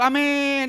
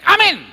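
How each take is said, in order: First: The word is drawn out long. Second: The word is said short and quick. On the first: The person does not really mean it. The speaker calls it wrong. "Orang kalau aminnya panjang tuh" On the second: The person is sure and means it. The speaker calls it right. "Orang kalau yakin aminnya pendek"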